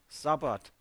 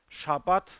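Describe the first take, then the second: First: The word begins with an s sound. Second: The word begins with a sh sound. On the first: This is how the Greeks said it. "sie sagten Sabbat" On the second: This is the original Hebrew form. "Es heißt Shabbat"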